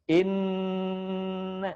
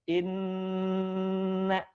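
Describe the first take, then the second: No difference in how they are said.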